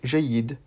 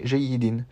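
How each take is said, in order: First: The word ends without its final vowel syllable. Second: The word ends with its final vowel syllable pronounced. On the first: "j'ai prononcé jayyid" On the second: "J'ai pas prononcé jayyidin"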